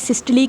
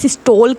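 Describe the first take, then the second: First: The word ends with an 'ee' sound. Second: The word ends with an 'ole' sound. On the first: This is the correct form of the word. "वैसे सही लफ्ज़ सिस्टली है" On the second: This is how most people say it. "ज़्यादातर लोग सिस्टोल ही इसको pronounce करते हैं"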